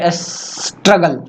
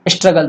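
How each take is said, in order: First: The word is broken up with repeated sounds. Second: The word is said smoothly in one go. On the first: The speaker has a stammer. The speaker calls it wrong. "तो वो बोलेंगे struggle" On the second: This is the intended word. The speaker calls it right. "बोलना है struggle"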